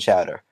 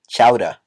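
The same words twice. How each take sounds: First: It is said in a general American accent. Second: It is said in a Boston accent.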